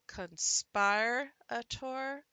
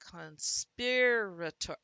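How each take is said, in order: First: The i sounds long, as in conspire. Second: The i sounds short, as in sit. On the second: "trying the short vowel sound"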